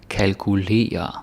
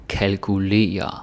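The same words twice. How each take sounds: Both takes have the same delivery.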